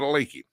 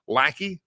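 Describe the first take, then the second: First: The first vowel sounds like the one in 'cake'. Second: The first vowel sounds like the one in 'cat'. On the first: The speaker calls it wrong. "not a lakey" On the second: The speaker calls it right. "Let's make sure we say that right"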